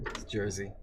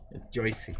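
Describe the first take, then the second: First: Said in the usual way. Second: Jersey said as Joycey, oy vowel, no r; Joycey, the local way; Joycey pronunciation. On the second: Shown as a demonstration. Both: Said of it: "We, we say Joycey".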